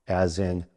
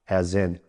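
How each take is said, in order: Both takes have the same delivery.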